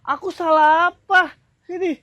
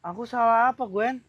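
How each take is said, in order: First: High, drawn-out question; high-pitched, indignant; exasperated protest. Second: Understated, patient question; mild bewilderment. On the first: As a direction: protest with raised voice, slowly. Second take, he is exasperated. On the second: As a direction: ask calmly what went wrong. First take, he is patient. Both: Acted.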